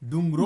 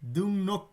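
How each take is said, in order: First: The second syllable starts with an L sound. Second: The second syllable starts with an N sound. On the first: The speaker calls it wrong. "আর হবে না" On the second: The speaker calls it right. "রিয়েলের উচ্চারণ দন্তান্নর মতো হয়ে যাবে, নিয়নের মতো হয়ে যাবে।"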